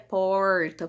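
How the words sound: It is said with a retroflex caipira R.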